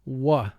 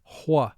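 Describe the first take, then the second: First: It is a plain w with no h. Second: A slight h sound comes before the w. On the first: "W H represents the sound w" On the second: "with a slight H sound in front"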